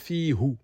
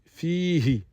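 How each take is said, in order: First: The final syllable is pronounced with a u vowel. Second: The final syllable is pronounced with an i vowel. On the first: The speaker calls it wrong. "on ne dit pas fi hu" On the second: The speaker calls it right. "on dit fihi"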